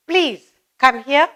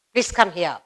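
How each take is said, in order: First: Polite request. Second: Command. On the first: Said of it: "ordering somebody". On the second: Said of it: "Order, command". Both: Shown as a demonstration.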